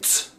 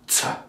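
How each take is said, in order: First: The consonant is said alone, without a vowel. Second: The consonant is followed by an added 'uh' vowel. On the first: The speaker calls it right. "you want to say T" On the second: The speaker calls it wrong. "rather than T"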